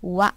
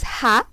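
First: The syllable begins with a w sound. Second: The syllable begins with an h sound. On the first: The character is used as a particle. "as a particle, this character used as wa" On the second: The character is read as an ordinary syllable. "you learn as ha for this word"

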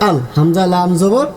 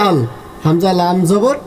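The two takes are said the same way.

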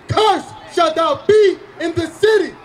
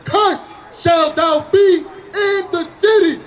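First: It is read at a normal pace. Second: It is read slowly.

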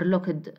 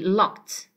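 First: The ending is not said as a t sound. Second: The ending is said as a t sound. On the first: The speaker calls it wrong. "Not looked or looked" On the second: The speaker calls it right. "it will be locked, okay, as a t sound"

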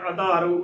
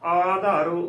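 First: The first vowel is a short 'a'. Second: The first vowel is a long 'aa'. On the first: The speaker calls it wrong. "ਆਧਾਰੋ ਉਚਾਰਨ ਨਹੀਂ ਕਰਨਾ" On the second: The speaker calls it right. "ਆਧਾਰੋ ਉਚਾਰਨ ਕਰਨਾ ਹੈ"

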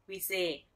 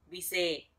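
The two takes are said the same way.

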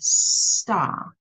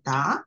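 First: The word starts with a clear s sound. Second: The word lacks the opening s sound. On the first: This is the adult form of the word. The speaker calls it right. "show him how to say it the correct way" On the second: This is how the child says it. The speaker calls it wrong. "repeat how the child says it"

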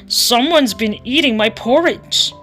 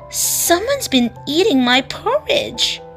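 First: It is said in Daddy Bear's growling voice. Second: It is exclaimed in Mommy Bear's excited voice.

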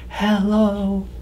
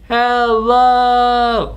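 First: It is said very quietly. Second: It is said very loudly.

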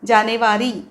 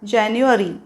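First: The word has a Marathi pronunciation. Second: The word has an English pronunciation. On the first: The speaker calls it wrong. "असं मराठीसारखं नाही म्हणायचं आहे" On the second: The speaker calls it right. "English जर बोलायचं असेल महिना जानेवारी जानेवारी असं म्हणायचं आहे"

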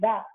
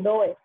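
First: The vowel is a short 'uh' sound. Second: The vowel is a long 'oh' sound. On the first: The speaker calls it right. "es do y da" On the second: The speaker calls it wrong. "No se pronuncia do y doe"

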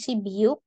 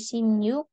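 First: The middle consonant is a b sound. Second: The middle consonant is an m sound. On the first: The speaker calls it wrong. "bukan sibiuk" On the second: The speaker calls it right. "tapi simyuk"

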